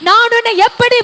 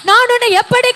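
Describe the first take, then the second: No difference in how they are said.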